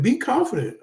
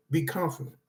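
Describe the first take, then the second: First: Be punched high and firm; stress on be. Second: Calm, dropped-down reassurance; softer. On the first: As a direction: hit the word Be hard. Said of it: "Act confident". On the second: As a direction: ease off and say Be confident gently. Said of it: "Don't be arrogant". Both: Shown as a demonstration.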